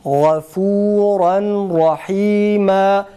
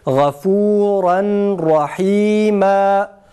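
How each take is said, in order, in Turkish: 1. Son n, r harfinden önce açıkça okunur. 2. Son n, r harfinden önce açıkça okunur.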